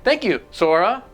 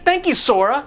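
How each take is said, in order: First: There is a weird pause before 'Sora'. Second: It is said smoothly without a pause.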